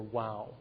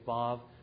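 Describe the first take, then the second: First: The word begins with a W sound. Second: The word begins with a V sound. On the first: "or a W" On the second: "it can be pronounced either as a V"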